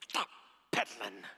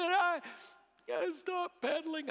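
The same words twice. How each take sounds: First: Halting, words forced out one at a time; mock angry child. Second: High-pitched, halting tearful whine; crying little boy. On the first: Mad little son admits his mistake to dad, angry. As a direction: imitate a mad boy's grudging confession. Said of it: "he was just mad". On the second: Retold or imitated. Small son admits his mistake to dad, crying. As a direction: imitate a sobbing child confessing to dad. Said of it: "and he cried".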